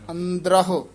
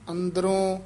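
First: The word ends with an audible 'hu' sound. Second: The word ends in a nasal 'on' sound. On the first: The speaker calls it right. "ਦੋਵੇਂ ਹਾਹੇ ਬੋਲਨੇ ਆ।" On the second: The speaker calls it wrong. "ਅੰਦਰੋਂ ਹੂੜਾ ਨਹੀਂ ਲਾ ਦੇਣਾ, ਹਾਹਾ ਹੈ।"

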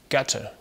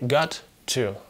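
First: The words blend into one word, 'getter'. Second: Both words are pronounced fully, with a clear t. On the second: "он поет не got to"

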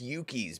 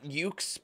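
First: The name is said as two syllables. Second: The name is said as one syllable. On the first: The speaker calls it right. "I think it's Yuki's" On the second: The speaker calls it wrong. "I've been pronouncing it Ukes"

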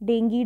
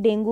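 First: The word ends with an 'ee' vowel. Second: The word ends with an 'oo' vowel. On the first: "actually इसको pronounce ना डेंगी करते हैं" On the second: "आप जो भी बोल सकते हैं"

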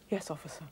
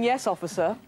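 First: The voice is soft and gentle. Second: The voice is full and forceful.

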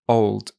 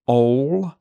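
First: The word ends with a soft d sound. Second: The final d sound is dropped. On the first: The speaker calls it right. "It's usually a soft d sound" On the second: The speaker calls it wrong. "She's missing the d sound"

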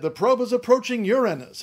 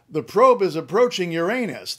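First: Uranus is stressed on its first syllable. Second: Uranus is stressed on its second syllable. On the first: This version avoids the rude joke. "They said, ... are these guys just being prudish about this? They didn't want to snicker?" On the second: This version sounds like a rude joke. "the guys on the news didn't say"

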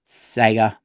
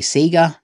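First: Sega is said in the speaker's usual way. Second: Sega is said the way some Australians say it. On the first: "I say it Sega" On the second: "some Australians will say Sega"

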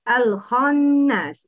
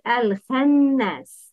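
First: The kh sound is heavy. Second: The kh sound is light. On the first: The speaker calls it right. "Pronounce خا with a heavy tone" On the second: The speaker calls it wrong. "But the wrong is"

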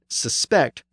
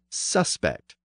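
First: The stress is on the second syllable. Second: The stress is on the first syllable. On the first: It is a verb meaning to believe someone guilty. "the verb form almost always has the stress at the end" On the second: It is a noun meaning a person believed guilty. "the noun form has it at the front"

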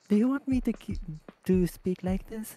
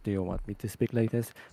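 First: It is said in a cute voice. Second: It is said in a deep voice.

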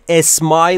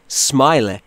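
First: It starts with a vowel before the s. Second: It starts directly with the s sound. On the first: The speaker calls it wrong. "اسمایل نیست" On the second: The speaker calls it right. "این سمایل"

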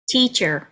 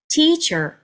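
First: The first syllable's vowel is lengthened. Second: The same.

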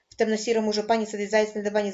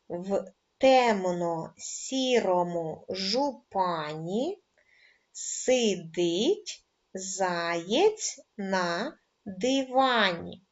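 First: It is spoken at a very fast pace. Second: It is spoken at a slow pace. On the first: "дуже швидко скажемо скоромовку" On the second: "разом зі мною спочатку в повільному темпі"

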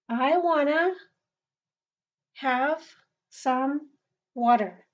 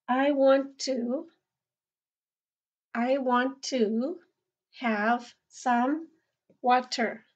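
First: 'Want to' is reduced and run together as 'wanna'. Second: 'Want to' is said fully, as two clear words. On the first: It is casual speech with friends or family. "and casually again" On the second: It is formal speech. "Let's say this formally"

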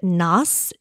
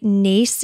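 First: The name is pronounced a non-Irish way. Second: The name is pronounced the Irish way. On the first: "Naas is like the non-Irish way to pronounce it" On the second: "I think Naas is the Irish way to pronounce it"

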